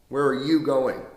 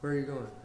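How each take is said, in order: First: It is projected forcefully toward the listener. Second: It is thrown away weakly, without projection.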